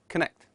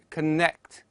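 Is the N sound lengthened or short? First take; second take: short; lengthened. First: The N sound is short. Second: The N sound is held long. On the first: The speaker calls it right. "instead of connect" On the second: The speaker calls it wrong. "and connect instead of"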